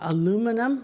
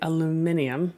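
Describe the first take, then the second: First: It has four syllables, ending in '-num'. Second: It has five syllables, ending in '-nium'.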